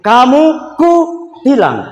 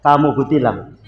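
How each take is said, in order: First: Slow, high "Kamu", held "ku", then falling "tilang"; raised intonation. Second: "Kamu kutilang" low, softer and run together; flat intonation. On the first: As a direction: split "kutilang" into "ku... tilang" on a high pitch. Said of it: "intonasinya agak tinggi sedikit". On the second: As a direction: say "Kamu kutilang" as one low, even statement. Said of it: "Ini intonasinya datar". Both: Shown as a demonstration.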